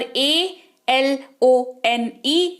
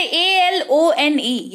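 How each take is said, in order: First: Spelling it out at half speed; very slow spelling. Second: Slow, clear spelling for learners. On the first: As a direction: spell A L O N E very slowly, each letter apart. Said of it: "यहाँ पर अ के तौर पर उच्चारण". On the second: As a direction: spell A L O N E letter by letter, slowly. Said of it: "word spelling जो है उसमें ऐसे पढ़ेंगे". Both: Shown as a demonstration.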